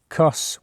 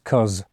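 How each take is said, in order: First: The word ends with a hissing s sound. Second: The word ends with a buzzing z sound. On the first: "Sometimes it's like cuss with a S" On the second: "sometimes it's cuz with a Z"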